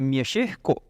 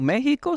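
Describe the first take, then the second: First: The word has the local dialect pronunciation. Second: The word has its usual standard pronunciation. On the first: This is how the local speakers say it. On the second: This is how most people say it.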